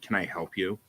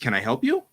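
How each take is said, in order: First: It is said in an unfriendly, off-putting tone. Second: It is said in a warm, sincere tone. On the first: The offer of help comes across as unwelcoming. The speaker calls it wrong. "I don't mean to" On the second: Help is genuinely being offered. The speaker calls it right. "What I meant was"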